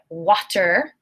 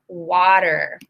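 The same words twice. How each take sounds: First: The middle consonant is a clear T sound. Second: The middle consonant is a soft D sound. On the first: The speaker calls it wrong. "I do not say water" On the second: The speaker calls it right. "I say water. So the T becomes a D sound"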